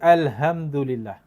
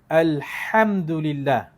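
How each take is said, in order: First: The h is a plain, light breathy sound. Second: The h is a tight, throaty breathy sound. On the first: The speaker calls it wrong. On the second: The speaker calls it right.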